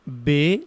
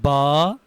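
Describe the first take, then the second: First: It is said Urdu style, ending in 'e'. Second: It is said Arabic style, ending in 'a'. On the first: The speaker calls it wrong. "Urdu तलफ़ुज़ से परहेज करें, यानी बे ... हरगिज़ ना पढ़ें" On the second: The speaker calls it right. "अरबी लहजे में अदा करें ... बल्कि बा"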